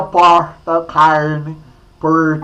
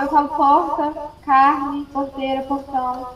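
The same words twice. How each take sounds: First: "porta", "carne", "porteira" with a retroflex caipira R. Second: "porta", "carne", "porteira" said with a soft R, not retroflex; soft R, no caipira. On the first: Teacher teasing a colleague by pulling the R, caipira R. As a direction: pull the R in "carne" the Minas countryside way. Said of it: "Ah, aí, ó". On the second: Colleague proving she doesn't pull the R, soft plain R. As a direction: say "porta" and "carne" without pulling the R. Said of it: "Eu não". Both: Shown as a demonstration.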